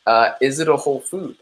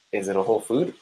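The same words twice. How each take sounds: First: Said in the usual way. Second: Quieter repeat. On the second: Shown as a demonstration. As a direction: ask it again, pulled back. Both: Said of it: "this goes back to my question".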